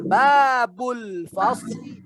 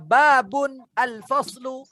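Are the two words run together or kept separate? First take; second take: run together; separate. First: The two words are run together into one. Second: The two words are said separately, not linked. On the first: "kalau disambung menjadi apa?" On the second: "alif lamnya tidak dibaca sambung"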